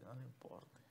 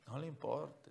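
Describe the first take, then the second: First: Whispered. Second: Said in the usual way. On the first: Shown as a demonstration. Preacher urging the congregation, whispered. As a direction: whisper the repeat of no le importe.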